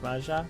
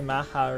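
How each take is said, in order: First: The middle consonant is an English j sound. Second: The middle consonant is a breathy h sound. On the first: It treats the name as not Spanish. The speaker calls it right. "You'd probably just say like Maja" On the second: It treats the name as Spanish. The speaker calls it wrong. "it's not Spanish, so you wouldn't say Maha"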